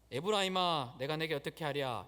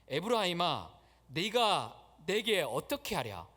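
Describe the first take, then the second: First: It is read flatly, without feeling. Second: It is read with earnest, heartfelt emotion.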